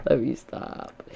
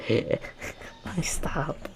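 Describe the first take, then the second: First: Said in the usual way. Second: Slow whispered line through laughter; softer, breathy giggle; laughing whisper. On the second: Real, not acted. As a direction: stop yourself, still giggling.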